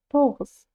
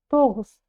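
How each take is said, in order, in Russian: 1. Средний согласный — звонкий щелевой g. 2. Средний согласный — звонкий щелевой g.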